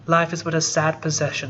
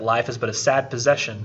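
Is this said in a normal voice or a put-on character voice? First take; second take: put-on; normal. First: It is said in a put-on character voice. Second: It is said in the speaker's ordinary voice. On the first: The speaker calls it right. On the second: The speaker calls it wrong.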